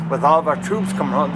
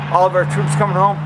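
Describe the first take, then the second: First: Said in the usual way. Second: All of our troops coming home said higher and louder, stress on coming; rally the crowd with coming home; emphatic repeat. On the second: Shown as a demonstration.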